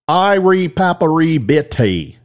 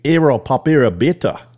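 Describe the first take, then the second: First: It is said with a Texan-sounding accent. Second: It is said with an Australian-sounding accent. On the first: "that's Texan" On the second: "That's Australian"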